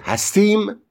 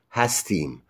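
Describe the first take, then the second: First: "هستیم" sent high up as a question; questioning tune. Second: Said in the usual way. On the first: Shown as a demonstration. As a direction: ask "هستیم", pitched well up. (لحن سوالی «هستیم»)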